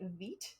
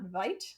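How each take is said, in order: First: The vowel sounds like 'ee' in 'feet'. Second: The vowel sounds like 'eye' in 'alive'. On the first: The speaker calls it right. "it's pronounced like Veet" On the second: The speaker calls it wrong. "not Vite"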